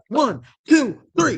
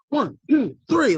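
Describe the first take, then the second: First: The count is said at a slower pace. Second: The count is said at a faster pace.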